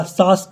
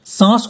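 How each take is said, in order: First: Said in the usual way. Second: सांस with the आ through the nose; nasalised vowel. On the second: Shown as a demonstration. Teacher turning one word into another, सांस with a nasal vowel. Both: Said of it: "खंडेतर ध्वनिग्राम का अनुनासिकता".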